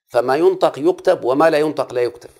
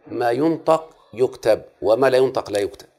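First: فما ينطق يكتب raised and louder, ينطق hit hard; emphatic rule. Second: ما ينطق يكتب spelled out slowly, each word weighted; slow rule for memorizing. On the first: Teacher repeating the rule to pupils, loud emphasis. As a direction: drive the rule home with force. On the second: Teacher to pupils, slow dictating emphasis. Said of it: "احفظ مني ما أقوله". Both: Shown as a demonstration.

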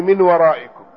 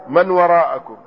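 First: "من ورائكم" read min waraa'ikum; kasra on mim. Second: "من وراءكم" read man waraa'akum; fatha on mim. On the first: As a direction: give "من" an i, min, and "ورائكم" an i after the hamza. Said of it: "بكسر الميم". ("من ورائكم" بكسر الميم) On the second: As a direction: give "من" an a, man, and "وراءكم" an a after the hamza. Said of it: "والثاني بفتحها". ("من وراءكم" بفتح الميم) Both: Shown as a demonstration.

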